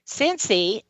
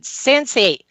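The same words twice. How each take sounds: First: The name dropped softly in passing; understated, easy mention of a name; calm mention. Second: Higher-pitched call of a name; a touch of desperate calling; retold desperation. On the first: Retold or imitated. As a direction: say the name calmly, without calling. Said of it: "just in a calm voice". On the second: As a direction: call the dog's name as a last resort, mildly acted. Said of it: "in desperation".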